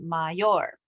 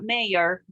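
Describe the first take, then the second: First: It is pronounced with Spanish sounds. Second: It is pronounced with English sounds. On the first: The speaker calls it right. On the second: The speaker calls it wrong. "It's not mayor, okay? It's that's the word in English"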